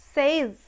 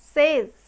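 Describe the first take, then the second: First: The word ends with a z sound. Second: The same.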